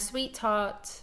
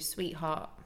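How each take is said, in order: First: The T is fully released before the H. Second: The T is a glottal stop before the H. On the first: "like I'm saying it there with a true T" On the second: "I'd probably say that too"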